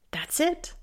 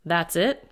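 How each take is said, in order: First: "That's it?" rising high and softer; can't believe it's over; father incredulous at the doctor, rising disbelief; incredulous question. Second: Said in the usual way. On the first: Acted. Gabriel incredulous at brief answer.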